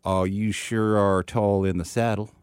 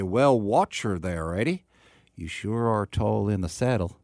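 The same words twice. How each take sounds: First: Slow, drawn-out Texan; actual Texan accent. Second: Slow mock Texan with British overtone; British person doing Texan. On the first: Shown as a demonstration. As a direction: demonstrate a real Texan drawl. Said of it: "an actual Texan accent". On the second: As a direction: imitate Brits attempting a Texan drawl. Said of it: "use their best British accent".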